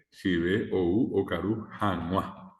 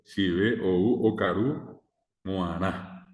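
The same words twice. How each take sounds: First: Guaraní example ending in "januá"; correct form. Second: Slow Guaraní example ending in "moaná"; wrong form. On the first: Teacher shows class how it should be said, correct ending "januá". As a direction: end the phrase on "januá" as the model answer. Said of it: "¿Cómo se debe decir?". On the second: Teacher shows class the mistaken form, wrong ending "moaná". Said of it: "No, eso está mal". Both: Shown as a demonstration.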